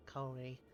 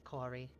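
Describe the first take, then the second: First: "Corey" with a long oh vowel; "Corey" with first vowel as in "go"; corrected name pronunciation. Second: "Corey" with an open aw vowel; "Corey" with first vowel as in "core"; wrong name pronunciation. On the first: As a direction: say "Corey" as COH-ree. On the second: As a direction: say "Corey" as CAW-ree. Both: Shown as a demonstration. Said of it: "very similar pronunciations in my accent".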